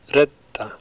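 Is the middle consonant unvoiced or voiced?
unvoiced. The middle consonant is long and unvoiced. "In Icelandic, they're unvoiced"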